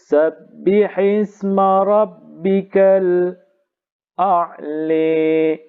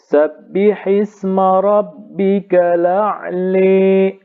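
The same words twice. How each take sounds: First: A brief silent break comes before the glottal stop. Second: The glottal stop is dropped and the vowel carries over. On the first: "saktah dan imalah" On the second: "nakal dan imalah"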